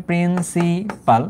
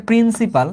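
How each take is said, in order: First: principal drawn out slowly, syllable by syllable; dictation pace. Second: Said in the usual way. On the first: Shown as a demonstration. Teacher explaining what P stands for, principal slowly drawn out. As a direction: stretch each syllable of principal for note-takers. Teacher repeats term for writing down.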